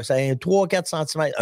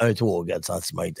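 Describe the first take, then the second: First: Said in the usual way. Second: Much lower and softer, mock radio voice; deep, hushed joking repeat. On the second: Shown as a demonstration. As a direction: drop it way down for fun. Repeats it in a put-on voice.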